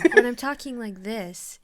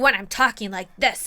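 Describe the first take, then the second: First: The voice is soft and gentle. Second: The voice is harsh and angry. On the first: The message is meant kindly. "it's such a kinder way" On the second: The speaker is upset. "I'm so angry"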